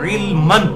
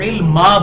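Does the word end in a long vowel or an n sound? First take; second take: n sound; long vowel. First: The word ends with an n sound. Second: The word ends with a long a vowel. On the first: The word is read on into the next words. "इल्मन लफ्ज है" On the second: The reader stops on this word. "जब उसे वक्फ करेंगे तो इल्मा बन जाएगा"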